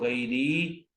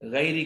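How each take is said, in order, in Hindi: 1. अंतिम स्वर लंबा खींचकर पढ़ा जाता है। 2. अंतिम स्वर छोटा है।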